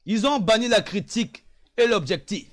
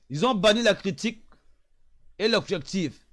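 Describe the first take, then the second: No difference in how they are said.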